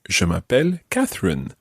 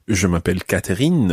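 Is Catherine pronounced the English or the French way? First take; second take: English; French. First: Catherine is pronounced the English way. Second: Catherine is pronounced the French way. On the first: The speaker keeps their own name. "stick with your own name" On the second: The name is translated into French. "translate it into the French version"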